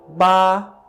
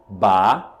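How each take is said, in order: First: The pitch stays level and flat throughout. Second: The pitch rises from low to high. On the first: "Primeiro tom, ba, é o tom plano" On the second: "O segundo tom é o tom que sobe"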